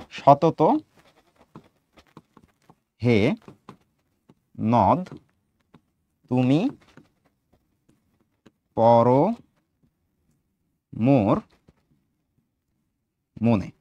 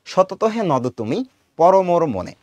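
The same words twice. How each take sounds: First: Long pauses between the words, lower pitch. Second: "সতত হে নদ তুমি", slight pause, then "পর মোর মনে"; read in two parts. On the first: Teacher giving pupils a poem line, word by word. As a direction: dictate it one word at a time. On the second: Teacher showing how the verse line is read, in two phrases split after "তুমি". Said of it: "দেখো আমরা এইভাবে পড়ি". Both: Shown as a demonstration.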